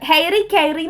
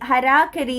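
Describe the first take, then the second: First: It is said like 'hairy kairy'. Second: It is said like 'harakari'. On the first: The speaker calls it wrong. "ഹെയറി കൈറി എന്നാണ് നമ്മൾ വായിക്കുക" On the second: The speaker calls it right. "ഹരാകരി എന്നാണ് ഇതിന്റെ pronunciation"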